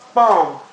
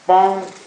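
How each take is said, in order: First: The pitch drops sharply from high to low. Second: The pitch stays high and level. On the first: "the falling tone" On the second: "the flat tone"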